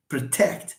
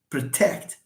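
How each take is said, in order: First: The stress is on the second syllable. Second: The same.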